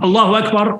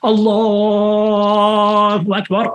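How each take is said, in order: First: The phrase is said briefly and quickly. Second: The phrase is said slowly and drawn out. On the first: The speaker calls it right. "keeps the takbiratul ihram and the salam short" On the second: The speaker calls it wrong.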